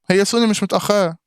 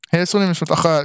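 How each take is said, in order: First: Higher, stress on سوني; insistent correction to chat; emphatic denial. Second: Said in the usual way. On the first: Real, not acted. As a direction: firmly push back on سوني. Contradicting chat loudly.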